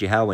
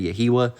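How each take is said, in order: First: The name is said in two syllables. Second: The name is said in three syllables. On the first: The speaker calls it right. "if the name's Yahweh" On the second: The speaker calls it wrong. "you say Yahiwa, you've lost it"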